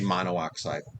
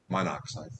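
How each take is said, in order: First: Two separate o vowels, mono then oxide. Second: The vowels merge into one, monoxide. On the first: The speaker calls it wrong. "You don't say" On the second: The speaker calls it right. "you drop the vowel on the end"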